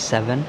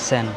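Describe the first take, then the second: First: It is said in the speaker's usual accent. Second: It is said clipped, in the local accent. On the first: "আমরা বলি সেভেন" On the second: "তারা মানে টানের মধ্যে বলে ফেলে সেন"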